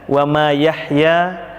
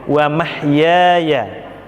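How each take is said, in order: First: The word is broken up as ma yahya. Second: The word is said whole as mahyaya. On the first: The speaker calls it wrong. "ada yang baca wa ma yahya, itu fatal sekali kesalahannya" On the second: The speaker calls it right. "harusnya mahya"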